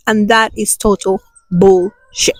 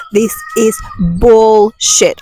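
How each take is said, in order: First: Said in the usual way. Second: "bullshit" slowed down, leaning hard on "shit"; stress on shit. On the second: Shown as a demonstration. Host rejecting society's rules, stressing "shit" slowly. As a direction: drag out "This is bullshit" and land on "shit". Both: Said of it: "I emphasize on the word shit".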